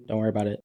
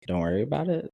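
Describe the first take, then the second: First: Said in the usual way. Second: Don't worry about it? rising in disbelief on it; incredulous echo. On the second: Retold or imitated. Echoing Martha's reply back in disbelief. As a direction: throw her words back as a question.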